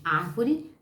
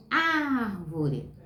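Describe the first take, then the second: First: Said in the usual way. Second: Very slow "árvore", long stressed ÁR; sílaba tônica alongada. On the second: Shown as a demonstration. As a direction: hold the first syllable of "árvore" to show the stress. ("árvore" bem devagar, com o "ár" esticado) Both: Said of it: "Preste atenção no pedacinho mais forte".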